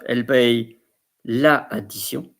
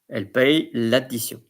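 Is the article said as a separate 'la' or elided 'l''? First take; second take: separate la; elided l'. First: The article is said in full as la. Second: The article is elided into the noun. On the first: The speaker calls it wrong. "So it's not elle paye la addition" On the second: The speaker calls it right. "apostrophe, because there is A"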